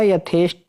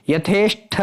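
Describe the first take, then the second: First: यथेष्ट ending in hard unaspirated t; corrected pronunciation. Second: यथेष्ट ending in aspirated th; wrong pronunciation. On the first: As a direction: finish यथेष्ट on a dry retroflex t. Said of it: "टमाटर होता है". (यथेष्ट के अंत में 'ट' बोलें) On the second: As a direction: puff air on the last sound of यथेष्ट. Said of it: "नहीं होता". (यथेष्ट के अंत में 'ठ' बोलें) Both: Shown as a demonstration.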